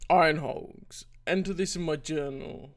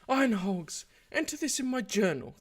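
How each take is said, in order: First: It is said in the speaker's own natural voice. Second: It is said in a put-on female character voice. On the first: The speaker calls it wrong. "Sorry. I need to do the voice" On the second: The speaker calls it right. "I'll do some approximation of my female voice again"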